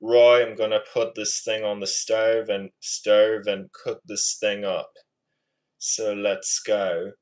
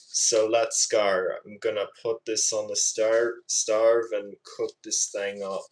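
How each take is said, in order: First: Amateur British accent attempt. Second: Attempted Aussie accent with altered vowels; Australian accent. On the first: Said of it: "I'm better at the British accent". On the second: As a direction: imitate an Australian cook. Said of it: "trying to do a good Australian accent impression". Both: Shown as a demonstration.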